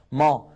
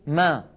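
First: ما darkened with a back vowel; heavy foreign meem. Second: ما thin, with a front vowel; light Arabic meem. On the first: Teacher cites other languages, heavy ما. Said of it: "لعله موجود في لغات أخرى". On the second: Teacher shows the Arabic way, light ما. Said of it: "لكن في العربية ما". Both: Shown as a demonstration.

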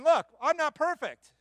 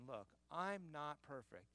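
First: Loud and high, "Look" hit hard; emphatic confession. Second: Quiet confession. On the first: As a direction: proclaim it to the whole church. Preacher voicing Paul's confession. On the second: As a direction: say it softly, almost to yourself. Repeats quote softly after loud take. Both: Retold or imitated.

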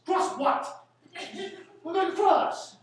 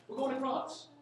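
First: Loud, high, laughing mockery of going across; mocking the expression. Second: Said in the usual way. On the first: Lecturer mocking a phrase he hates, laughing loudly. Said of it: "I hate people call it cross". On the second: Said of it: "It's a stupid expression".

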